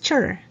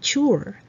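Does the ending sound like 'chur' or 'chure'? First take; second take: chur; chure. First: The ending sounds like 'chur'. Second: The ending sounds like 'chure'. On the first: The speaker calls it right. "the pronunciation is chur" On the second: The speaker calls it wrong. "not chure"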